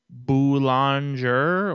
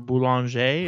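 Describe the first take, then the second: First: The name is pronounced the English way. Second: The name is pronounced the French way.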